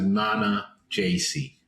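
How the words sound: The name is said with an American pronunciation. "if you want to Americanize it"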